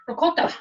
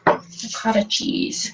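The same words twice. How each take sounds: First: Ricotta with an Italian lilt, rolled and high; Ricotta with a playful Italian accent. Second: Said in the usual way. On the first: Retold or imitated. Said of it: "with that nice little Italian accent". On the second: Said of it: "I need to say that like Giada".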